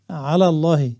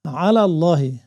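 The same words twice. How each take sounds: The two takes are said the same way.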